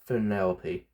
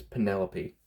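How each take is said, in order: First: "Penelope" said as Fenelope with an F; wrong F start. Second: "Penelope" with a clear P at the start; correct P sound. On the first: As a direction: swap the P in "Penelope" for an F. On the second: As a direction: stress the P in "Penelope". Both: Shown as a demonstration. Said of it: "she starts with P, not F".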